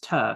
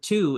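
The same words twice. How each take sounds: First: The vowel is a drawn-out 'ah' sound. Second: The vowel is a plain 'oo' sound. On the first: "T A instead of T O, elongating the A" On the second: "instead of to"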